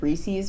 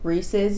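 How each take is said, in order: First: The name does not rhyme with pieces. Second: The name rhymes with the word pieces. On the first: This is the speaker's lifelong way of saying it. "I've grown up my entire life calling them Reese's" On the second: This is the friend's way of saying it. "it's supposed to rhyme with the word pieces"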